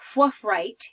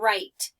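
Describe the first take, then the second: First: A W sound is voiced before the R. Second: The word starts directly with the R sound. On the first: The speaker calls it wrong. "I don't say wh write your name" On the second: The speaker calls it right. "The W is quiet"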